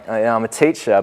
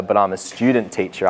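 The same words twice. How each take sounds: First: Said in the usual way. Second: Student stressed and lengthened, teacher falls away. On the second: Retold or imitated. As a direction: lean on the word student to correct him.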